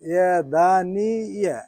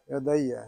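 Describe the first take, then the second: First: An 'n' sound is heard in the middle. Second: No 'n' sound; the 'y' is doubled. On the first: This is the underlying original form of the word. "এটা হলো আসল শব্দটা" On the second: This is the form actually used after the rule applies. "নুনটা উচ্চারণ হবে না ... ডাবল হয়ে যাবে"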